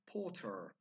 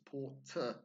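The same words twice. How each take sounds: First: The ending has a slight, soft R sound. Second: The ending has no real R sound. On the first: "In American English, they've got a slightly harder version" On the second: "we don't have that hard R sound"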